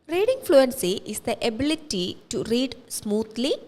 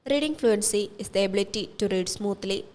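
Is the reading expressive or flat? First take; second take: expressive; flat. First: It is read expressively, with stress on key words. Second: It is read flatly, with no stress variation. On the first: "in a manual way with expression" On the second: "in a robotic way"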